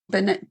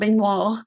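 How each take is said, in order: First: The name is said in plain English style. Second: The name is said in a fancy French style. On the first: The speaker calls it right. "according to how the audiobook reader pronounced it. ... No fancy pants here" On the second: The speaker calls it wrong. "it was not Benoit"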